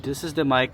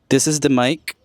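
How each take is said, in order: First: Much background noise is picked up with the voice. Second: Background noise is suppressed, leaving mostly the voice. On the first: The speaker calls it wrong. "the mic of the camera ... It gets all the external sounds" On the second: The speaker calls it right. "with the isolating feature. So supposedly it's it should just focus in my voice now"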